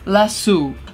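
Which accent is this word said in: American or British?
British. The word is said with a British pronunciation. "in British it's lasso"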